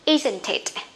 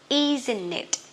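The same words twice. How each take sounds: First: The T is sounded and linked into "it". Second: The T after the N is left out. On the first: "We can link them together like this" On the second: "they don't like to pronounce T, this T, after N. So we don't need T anymore"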